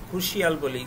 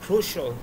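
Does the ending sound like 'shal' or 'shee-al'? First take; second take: shee-al; shal. First: The ending is said as two syllables, 'shee-al'. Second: The ending is said as one syllable, 'shal'. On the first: The speaker calls it wrong. "Pronunciation ভুল" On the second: The speaker calls it right. "এগুলোর উচ্চারণ হবে শল"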